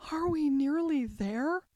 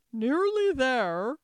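First: Higher-pitched, mildly weary question; panted question. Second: Loud, slow echo of a question; incredulous echo. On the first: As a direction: ask with just a hint of breathlessness. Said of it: "managed to pant out at last". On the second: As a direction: repeat it slowly and loudly, as if astonished. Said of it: "the queen repeated". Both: A narrator's reading.

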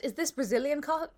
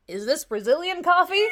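First: Said in the usual way. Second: Put-on loud, high American tourist accent. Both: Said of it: "Do the accent".

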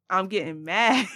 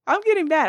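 First: Getting mad. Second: Higher, louder, laughing through it; laughing at own anger. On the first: Vlogger to viewers, admitting she's getting mad. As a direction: own up to rising anger. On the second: Vlogger to viewers, laughing at her own anger. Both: Real, not acted.

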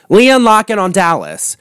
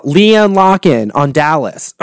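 First: Said in the usual way. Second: Slow, voice giving out; voice going. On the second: Real, not acted. Naming a favourite reality star, voice going. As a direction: let the voice go on LEANNE LOCKEN. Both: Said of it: "God, there goes my voice".

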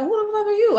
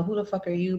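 First: High-pitched incredulous comeback; indignant retort. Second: Softly sassy mock confrontation. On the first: Retold or imitated. Woman answering the young mother, high indignant retort. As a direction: throw the challenge back, voice shooting up. Firing the challenge straight back. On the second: Young mother at the door to a stranger, understated sass. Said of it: "you know, kinda sassy".

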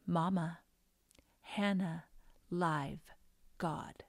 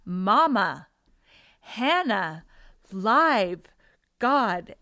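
First: Lightly voiced toddler, word by word; halting little-girl statement, gently retold; little child's voice. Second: Put-on loud, punched toddler words with pauses between; emphatic little-girl insistence, much louder; insistent child. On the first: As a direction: say each word separately, like a small child. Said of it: "I hear this little voice". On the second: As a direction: hammer each word like a child demanding to be heard. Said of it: "I heard the voice from behind again".

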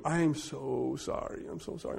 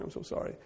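First: Soft retold apology. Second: Fading into a whispered apology; whispered sorry. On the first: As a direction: say sorry softly, ashamed. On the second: Retold or imitated. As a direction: let the last sorry drop to a whisper. Apology fades out.

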